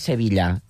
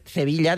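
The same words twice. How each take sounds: First: The first sound is a plain s sound. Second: The first sound is a lisped th sound. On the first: This is closer to standard Castilian. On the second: This is the older local way of speaking. "ja no diuen"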